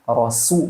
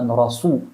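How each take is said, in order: First: The s sound is light and thin. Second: The s sound is heavy and thick. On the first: The speaker calls it right. "pakai rasu" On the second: The speaker calls it wrong. "bukan rasu"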